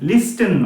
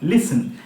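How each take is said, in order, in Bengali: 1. "s"-এর পরে "t" ধ্বনি উচ্চারিত হয়। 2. "s"-এর পরে কোনো "t" ধ্বনি উচ্চারিত হয় না। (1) "লিস্টেন নয়" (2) "এই টিটা কিন্তু এখানে সাইলেন্ট"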